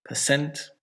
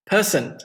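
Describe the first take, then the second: First: Per-CENT, weight at the end; stress on second syllable. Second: PER-cent for Person, PER pitched high; stress on first syllable. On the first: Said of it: "put it on the second one". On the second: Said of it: "stress, on the first syllable". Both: Shown as a demonstration.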